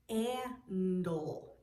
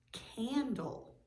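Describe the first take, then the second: First: "Candle" split into stretched separate parts; sounded out. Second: Said in the usual way. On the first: Shown as a demonstration. Teacher checking for the I sound, "Candle" pulled apart slowly. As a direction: break "Candle" as c, aa, ndle, slowly. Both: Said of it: "Is there an I sound in".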